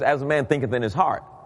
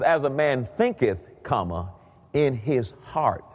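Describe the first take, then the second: First: It runs on with no break after thinketh. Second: There is a break after thinketh.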